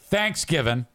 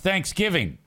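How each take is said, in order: First: It is said the way hillbillies say it. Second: It is said the standard, non-hillbilly way. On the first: The speaker calls it wrong. "It's not Thanksgiving. ... Hillbillies call it Thanksgiving" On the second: The speaker calls it right. "It's Thanksgiving"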